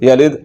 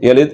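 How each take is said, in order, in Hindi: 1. आखिरी d झटके के साथ छोड़ा जाता है। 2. आखिरी d बिना झटके के काटा जाता है। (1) "कलकला करना है" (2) "अगर बगैर कलकले के पढ़ूँ"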